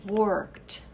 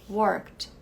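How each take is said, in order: Both takes have the same delivery.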